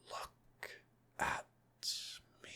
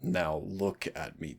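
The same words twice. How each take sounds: First: Breathy whisper, far softer. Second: Said in the usual way. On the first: Acted. Demon coaxing the turned-away listener, soft whisper. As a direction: hush it, slow and close.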